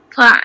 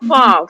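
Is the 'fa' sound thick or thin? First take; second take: thin; thick. First: The syllable is said thin and light. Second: The syllable is said thick and heavy. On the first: The speaker calls it right. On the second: The speaker calls it wrong. "jangan sebut fa, fa, fa tu tebal"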